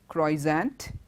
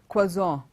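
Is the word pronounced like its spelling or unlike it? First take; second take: like spelling; unlike spelling. First: The word is pronounced just as it is spelled. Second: The word is pronounced differently from its spelling. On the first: The speaker calls it wrong. "It's not pronounced the way it is spelled" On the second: The speaker calls it right. "It's croissant"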